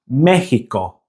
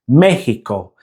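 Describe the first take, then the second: Both takes have the same delivery.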